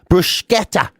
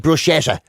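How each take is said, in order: First: The middle consonant is a hard k sound. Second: The middle consonant is a soft sh sound. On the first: The speaker calls it right. "you're supposed to put the K sound in. Bruschetta is apparently the proper way" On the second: The speaker calls it wrong. "I always say bruschetta. ... Wrong, apparently"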